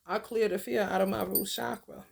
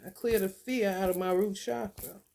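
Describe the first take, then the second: First: Affirmation. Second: Calm, steady mantra; affirmation. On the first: Guiding viewers, repeating the mantra. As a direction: stress on fear in a steady mantra. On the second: Guiding viewers through a chakra affirmation, calm. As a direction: state it like a chant. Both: Shown as a demonstration. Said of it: "This is what you're gonna be saying".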